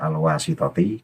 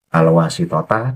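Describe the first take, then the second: First: The word ends with an 'i' vowel. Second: The word ends with an 'a' vowel. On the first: The speaker calls it wrong. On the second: The speaker calls it right.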